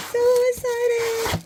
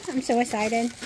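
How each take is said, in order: First: High, slow squeal of delight; excited squeal. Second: Said in the usual way. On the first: Real, not acted.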